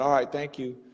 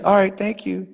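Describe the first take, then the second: First: The tone sounds flat and uninterested. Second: The tone sounds warm and interested. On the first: The person does not want to keep talking. "I would take it like you probably not so interested" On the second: The person is open to keep talking. "then I would be like, my name's [name], so what's your name?"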